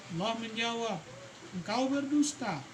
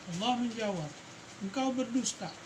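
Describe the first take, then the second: The two takes are said the same way.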